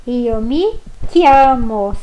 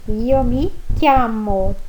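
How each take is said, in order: First: "Io mi chiamo" very slow, "chiamo" with a hard k. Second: "Io mi chiamo" slowly with hard k in "chiamo"; repeated chiamo. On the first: Teacher showing chi sounds like ki, slowly. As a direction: stretch out "chiamo" with a k. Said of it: "C H I, som de ki". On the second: Teacher repeating the phrase after explaining ki. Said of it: "som de ki". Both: Shown as a demonstration.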